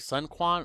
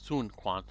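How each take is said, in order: First: The first word rhymes with 'fun'. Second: The first word rhymes with 'moon'.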